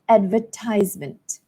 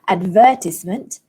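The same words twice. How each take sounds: First: The stress is on the third syllable. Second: The stress is not on the third syllable. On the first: The speaker calls it right. "stress falls on the third syllable" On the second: The speaker calls it wrong. "It's not advertisement"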